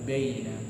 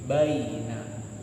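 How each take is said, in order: First: The word is articulated weakly and indistinctly. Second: The word is articulated fully and distinctly. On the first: The speaker calls it wrong. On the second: The speaker calls it right.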